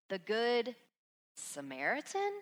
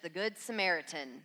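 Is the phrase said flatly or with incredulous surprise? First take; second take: incredulous; flat. First: The phrase is said with surprised, questioning disbelief. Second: The phrase is said plainly, as a familiar label. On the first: A Samaritan being good is unexpected. The speaker calls it right. "I want you to hear it like this" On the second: A familiar label for a kind person. The speaker calls it wrong. "Instead of just the Good Samaritan that we're trying to be"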